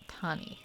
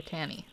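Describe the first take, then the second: First: "Tani" said TAH-nee, a broad ah in the first syllable; Tani with open ah. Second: "Tani" said TA-nee, a flat a as in cat in the first syllable. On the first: Answering a viewer, trying the tribe name as TAH-nee. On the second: Answering a viewer, trying the name again as TA-nee. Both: Shown as a demonstration. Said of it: "depending on how it's said".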